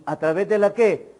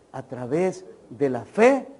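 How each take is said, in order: First: "qué" left hanging with a falling prompt to the crowd; prompting question. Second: Slow, "fe" lifted and drawn out; answer stressed on fe. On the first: Preacher quizzing the congregation, prompting tone. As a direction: ask "¿A través de la qué?" like a teacher waiting for the answer. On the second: Preacher answering his own question, slow and emphatic. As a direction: give the answer slowly, landing on "fe". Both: Shown as a demonstration.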